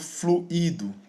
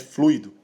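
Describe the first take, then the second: First: The i is a separate, stressed syllable. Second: The 'ui' forms one syllable, no hiatus. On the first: The speaker calls it wrong. "Eu não falo fluido... Eu teria uma formação de um hiato" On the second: The speaker calls it right. "não tem formação de hiato, a forma correta é fluido"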